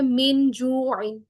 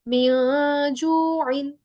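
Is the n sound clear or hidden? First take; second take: clear; hidden. First: The n sound is pronounced fully and clearly. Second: The n sound is hidden and blended. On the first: The speaker calls it wrong. "मुकम्मल अदा का मतलब है जैसे इजहार में हम करते हैं" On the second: The speaker calls it right. "नून की आवाज को मैं हाइड कर रही हूँ"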